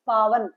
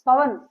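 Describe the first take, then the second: First: पावन said with a drawn-out long aa, paa-van; पावन with a clearly long aa; long aa in paavan. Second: पवन said with a short, quick first vowel, pa-van; पवन with short a, not long aa; short a in pavan. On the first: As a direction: stretch the first vowel of पावन. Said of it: "comparison करके दिखाई". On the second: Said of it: "तो अब इसको तोड़ोगे". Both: Shown as a demonstration.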